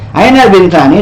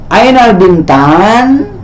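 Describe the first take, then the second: First: The last word ends with a final ni syllable. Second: The last word ends on n with no vowel.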